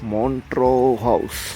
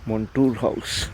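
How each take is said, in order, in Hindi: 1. नाम 'tro' ध्वनि पर खत्म होता है। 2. नाम 'toor' ध्वनि पर खत्म होता है। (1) "नॉट मॉन्ट्रू" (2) "इट्स मॉन्टूर हाउस"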